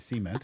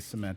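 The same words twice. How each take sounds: First: It is said with a southern Indiana pronunciation. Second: It is said with a general American pronunciation. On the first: This is the way the speaker still says it. "I say cement" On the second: This is the way the speaker does not say it. "I don't say cement"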